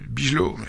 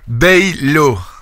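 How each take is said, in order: First: The letters IJ are said with a hard G. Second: The letters IJ are said as an 'ay' sound. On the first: The speaker calls it wrong. "il sait pas prononcer Bijol, il dit Bigelow" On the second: The speaker calls it right. "quand c'est I J, c'est hey"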